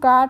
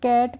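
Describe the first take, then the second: First: The vowel is a long open 'ah' sound. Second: The vowel is a flat 'a' as in 'bat'. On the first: The speaker calls it wrong. "इसको हम काट नहीं पढ़ते हैं" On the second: The speaker calls it right. "इसको कैट पढ़ते हैं"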